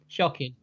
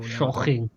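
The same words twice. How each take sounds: First: It is said in the speaker's ordinary accent. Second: It is said in a Welsh-sounding put-on accent.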